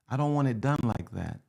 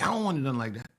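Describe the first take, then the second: First: It is said gently, with a smile. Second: It is said harshly and forcefully.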